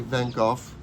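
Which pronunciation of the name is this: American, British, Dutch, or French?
British. The name is pronounced the British way. "in London they say Van Gogh"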